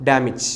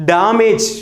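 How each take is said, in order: First: ഡാമേജ് shortened to "dam-ich"; correct pronunciation. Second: ഡാമേജ് with long "daa" and long "mej"; common mispronunciation. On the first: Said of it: "കൃത്യമായ ഉച്ചാരണം". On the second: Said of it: "നമ്മൾ ഉച്ചരിക്കുന്നത്". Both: Shown as a demonstration.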